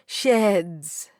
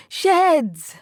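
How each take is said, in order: First: Said in the usual way. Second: Higher and louder call after him. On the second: A narrator's reading. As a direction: call him back as he walks off. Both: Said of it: "You call out to him".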